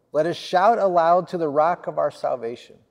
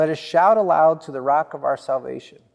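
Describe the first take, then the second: Both takes have the same delivery.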